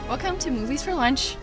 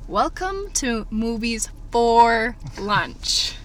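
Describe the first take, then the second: First: It is said at normal, quicker pace. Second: It is said slowly and deliberately.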